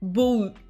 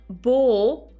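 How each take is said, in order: First: The vowel is cut short. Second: The vowel is held long. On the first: The speaker calls it wrong. "et non pas bou" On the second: The speaker calls it right. "c'est l'allongement, donc c'est bien bo"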